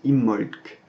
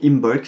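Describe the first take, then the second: First: A long m replaces the b sound. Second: The b is pronounced after the m. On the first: The speaker calls it right. "ça se prononce Immolc. Donc en fait on insiste sur le M" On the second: The speaker calls it wrong. "je vous le prononce plus ou moins à la française en premier"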